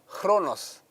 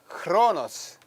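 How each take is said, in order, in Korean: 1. 이 단어는 약한 h 소리로 시작합니다. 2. 이 단어는 강한 k 소리로 시작합니다. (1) "원래 발음은 조금 크보다는 좀 약합니다" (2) "우리가 크로노스라고 읽지만은"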